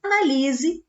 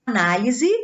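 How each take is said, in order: First: "Analise" stressed on "li", a-na-LI-se; verb stress. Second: "Análise" stressed on the first syllable, A-ná-li-se; noun stress. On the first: Teacher showing the verb form: "Analise" stressed on "li". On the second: Teacher showing the noun form: "Análise" stressed on "ná". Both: Shown as a demonstration. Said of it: "Observe a mudança de classe gramatical".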